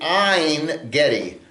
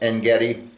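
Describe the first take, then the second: First: The first word has an 'ei' vowel, like 'rain'. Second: The first word has a plain short 'e' vowel. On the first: This is the original Hebrew form. "is actually Ein Gedi" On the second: "This is how the Christians say it"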